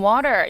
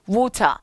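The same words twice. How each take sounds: First: It is said in an American accent. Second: It is said in a British accent.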